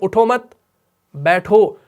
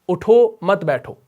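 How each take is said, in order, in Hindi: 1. विराम ठीक 'mat' शब्द के बाद आता है। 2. विराम ठीक 'utho' शब्द के बाद आता है। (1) "मत पे वक्फ किया" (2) "जिसमें उठने का हुक्म है और बैठने की ममानियत है"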